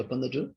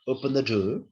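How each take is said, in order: First: The voice falls at the end. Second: The voice rises at the end. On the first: It is an order. "this is what the infalling intonation, it is what order" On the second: It is a request. "Open the door is what? Is request"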